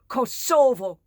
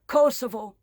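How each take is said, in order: First: The stress is on the second syllable. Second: The stress is on the first syllable. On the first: This is how the residents say it. The speaker calls it right. "Emphasis on the second syllable" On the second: This is how the occupiers say it. The speaker calls it wrong. "how the winners, how the occupiers say it"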